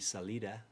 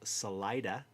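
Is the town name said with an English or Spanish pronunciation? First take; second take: Spanish; English. First: It is said with a Spanish pronunciation. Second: It is said with a local English pronunciation. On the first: "In Spanish, it would be Salida" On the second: "we pronounce them all incorrectly"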